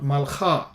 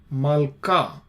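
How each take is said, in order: First: The middle consonant is a throaty kh sound. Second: The middle consonant is a hard k sound. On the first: The speaker calls it wrong. "not malcha" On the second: The speaker calls it right. "this is ka, not kha"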